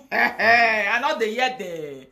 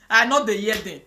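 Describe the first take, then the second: First: Slow, laughing through the words. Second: Said in the usual way. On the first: Real, not acted. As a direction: laugh as you say it knowingly. Laughs while repeating line.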